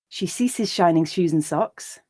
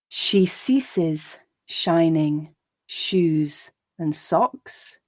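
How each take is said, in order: First: The line is read at a natural speed. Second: The line is read slowly. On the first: "and then at a more natural pace" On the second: "I'll read each line slowly"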